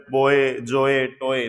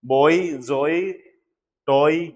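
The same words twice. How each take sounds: First: बॉय, जोए, टोए each ending in a flat e, "boe, joe, toe"; imitating channels that teach बॉय, जोए, टोए wrongly; बॉय, जोए, टोए said the mistaken way; wrong pronunciation. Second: बॉय, जोए, टॉय as "boi, joi, toi" with an oi glide; the right way: बॉय, जोए, टॉय end in an i glide; बॉय, जोए, टॉय with a clear oi sound; correct pronunciation. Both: Shown as a demonstration. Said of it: "नहीं".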